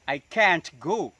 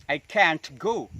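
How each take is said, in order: First: The T in can't is released audibly. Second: The same.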